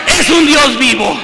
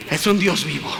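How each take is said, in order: First: Loud, emphatic cry; shouted proclamation. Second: Low, soft hushed aside; quiet murmur. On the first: Preacher proclaims to the congregation, shouting. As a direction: shout it out to the church. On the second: Preacher hushes the line before proclaiming it, quietly. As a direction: drop it to a hush before the shout. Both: Acted. Quiet then shouted repeat.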